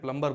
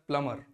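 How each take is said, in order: First: The word is said with a 'b' sound. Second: The word is said without a 'b' sound. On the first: The speaker calls it wrong. "कई लोग बोलते हैं प्लम्बर" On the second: The speaker calls it right. "वो होता है प्लमर"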